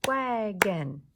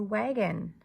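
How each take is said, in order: First: "Wagon" in two loud beats, wa-gon; clapped-out syllables. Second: Said in the usual way. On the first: Shown as a demonstration. Teacher clapping wagon for the class, "Wagon" loudly syllable by syllable. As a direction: punch both syllables of "Wagon". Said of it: "clap and count the syllables in each word".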